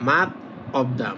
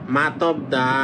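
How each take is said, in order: First: The two words are said apart, unlinked. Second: The final consonant carries into the next word. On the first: "মাত এটা একটা শব্দ, আবার অপ্তা এটা একটা শব্দ" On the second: "যখন এটা একসাথে হয়ে যাবে তখন এই যে শিউটা এখানে চলে যাবে"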